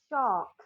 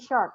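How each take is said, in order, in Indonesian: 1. Bunyi r dihilangkan dan vokalnya dipanjangkan. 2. Bunyi r setelah vokal diucapkan. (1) "Tapi kalau ini R P, dia bunyinya jadi shock" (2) "Kalau American mungkin nyebut ini shark"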